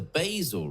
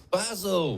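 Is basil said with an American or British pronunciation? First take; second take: American; British. First: Basil is said with an American pronunciation. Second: Basil is said with a British pronunciation. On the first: The speaker calls it wrong. "you Americans call it the basil" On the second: The speaker calls it right. "Of Faulty Towers, it's basil"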